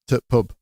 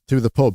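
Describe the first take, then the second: First: The word 'the' is dropped to a t-sound. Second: The word 'the' is pronounced in full. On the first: "it's just a T and then pub" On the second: "that is uh, short for"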